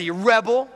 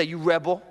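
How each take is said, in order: First: Higher, emphatic accusation; like you mean it. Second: Said in the usual way. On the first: Shown as a demonstration. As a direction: say it with real conviction. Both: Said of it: "Say it like you mean it".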